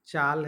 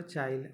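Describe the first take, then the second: First: Said in the usual way. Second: "चाइल" with i slipped in before the l; Nagpuri epenthesis. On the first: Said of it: "है तो चाइल". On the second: Shown as a demonstration. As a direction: pronounce "चाइल" as chaa-il. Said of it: "अपनी ही ती". ("चाइल" में आ के बाद इ बोलें)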